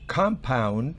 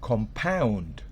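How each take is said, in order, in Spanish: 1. El acento está en la primera sílaba. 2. El acento está en la última sílaba. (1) "la tilde fonética está en la primera sílaba" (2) "siempre el verbo lleva el acento en la última sílaba"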